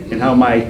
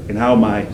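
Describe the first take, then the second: No difference in how they are said.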